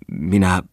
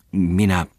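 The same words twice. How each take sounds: First: The clerk trying "minä" again with effort; stammering restart. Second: A hesitant, stuck "Minä" that falls off; the young clerk catching on "Minä"; stammering. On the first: Clerk restarts his stammer, a slightly louder "minä". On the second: Clerk stammers to the merchant, stuck on "Minä". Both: A narrator's reading. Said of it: "änkytteli nuori mies".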